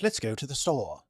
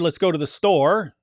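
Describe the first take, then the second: First: It is said in a British accent. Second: It is said in the speaker's usual accent.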